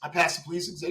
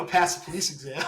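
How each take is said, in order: First: Said in the usual way. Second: Laughing through the news to his friend; giggling out the big news; laughing while telling. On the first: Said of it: "So I was like". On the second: Real, not acted. Telling his jailed best friend, laughing as he speaks. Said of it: "we were laughing about it".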